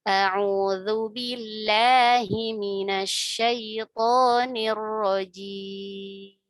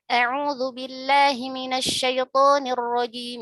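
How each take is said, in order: First: It is recited at a moderate pace. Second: It is recited at a fast pace. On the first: "tidak terlalu cepat, tidak terlalu lambat" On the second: "Itu contoh yang hadir cepat ya"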